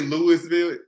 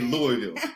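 First: The name is pronounced the way outsiders say it. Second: The name is pronounced the way locals say it. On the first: The speaker is not from there. The speaker calls it wrong. "you can't say Louisville" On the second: The speaker is from there. The speaker calls it right. "We say Louisville"

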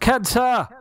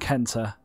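First: The name is shouted loudly. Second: The name is said at normal loudness.

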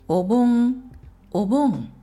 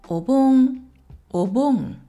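Both takes have the same delivery.

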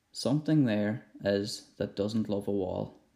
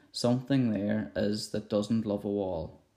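No difference in how they are said.

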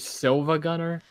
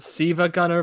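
First: The first word is said with an L sound. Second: The first word is said without an L sound. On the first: The letter is read as an L. The speaker calls it right. "but it's actually Silva Gunner" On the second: The letter is read as a capital I. The speaker calls it wrong. "She pronounces it Siva Gunner"

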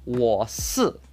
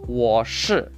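First: It is said with a Taiwanese accent. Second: It is said with a mainland Chinese accent. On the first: "In Taiwan" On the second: "So to say I am in mainland China"

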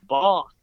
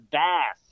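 First: It is said in a British accent. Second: It is said in an American accent.

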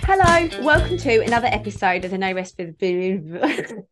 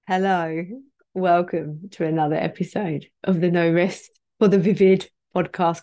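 First: It is said too quickly. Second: It is said more slowly.

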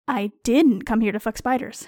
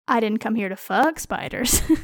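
First: The word "didn't" carries the strongest stress. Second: The word "fuck" carries the strongest stress. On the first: I deny the accusation that I came for that. "You seem sure I am here solely to fuck spiders, and I resent the implication" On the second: I came for other business involving spiders. "I am here on other spider-related business"

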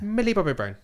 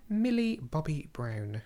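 First: The name is said quickly. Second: The name is said slowly.

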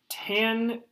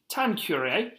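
First: It is said in the speaker's plain accent. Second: It is said in a put-on English accent.

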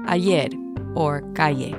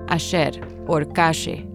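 First: The double L and Y sound like y. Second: The double L and Y sound like sh.

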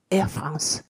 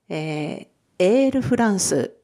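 First: It is said with French sounds. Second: It is said with Japanese katakana sounds.

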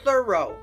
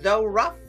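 First: The word ends with an 'oh' sound. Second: The word ends with a 'ruff' sound. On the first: The speaker calls it right. "but we pronounce it thorough" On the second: The speaker calls it wrong. "when you look at it, it looks like though rough"

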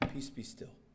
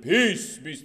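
First: It is said calmly and casually. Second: It is said loudly and dramatically.

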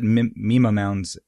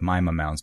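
First: 'Mima' does not sound like the end of 'Jemima'. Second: 'Mima' sounds like the end of 'Jemima'. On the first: This is the pronunciation first assumed. The speaker calls it wrong. "I called it Mima mounds at first as well" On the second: This is the pronunciation an expert uses. The speaker calls it right. "I'll have to go with Mima mounds because that's what a scientist said"

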